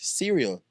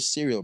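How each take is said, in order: First: The word is said in an American accent. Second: The word is said in a British accent. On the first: "in America, we call this cereal" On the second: "What do you call it, Brit? We call it cereal, bro"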